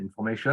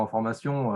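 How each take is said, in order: First: "information" the English way, with a "sh" sound in "-tion" and a French accent. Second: Said in the usual way. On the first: Shown as a demonstration. Showing viewers how a French word passes in English, light English accent on "information". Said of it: "bah, en anglais". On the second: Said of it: "on met un petit accent".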